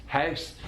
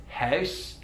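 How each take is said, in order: No difference in how they are said.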